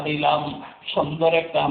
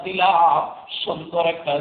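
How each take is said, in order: Both takes have the same delivery.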